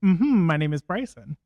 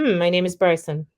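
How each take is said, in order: First: A repeat of the hum exercise; natural speaking pitch. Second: Natural pitch demo. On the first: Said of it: "That's right where you speak". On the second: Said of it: "So say". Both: Shown as a demonstration.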